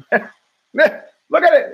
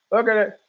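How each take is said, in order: First: Drawn-out laugh through the words; giggling at the monkeys on screen. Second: Said in the usual way. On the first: Real, not acted. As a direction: laugh it out slowly, pitched up.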